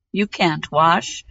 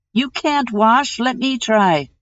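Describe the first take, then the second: First: Put-on slow, scornful young prince. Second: Put-on old hag voice. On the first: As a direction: dismiss them slowly as the prince. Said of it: "said the prince". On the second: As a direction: sneer it like an old troll hag. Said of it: "said the old hag, her mother".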